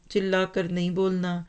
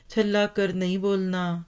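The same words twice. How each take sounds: First: چلا with a plain unaspirated ch and short i; چلا pronounced chilla, unaspirated ch. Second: چھلا with a breathy aspirated chh and short a; چھلا pronounced chhalla, aspirated chh. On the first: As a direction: say چلا as chilla, no breath after ch. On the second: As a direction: say چھلا as chhalla, puff of air after ch. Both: Shown as a demonstration.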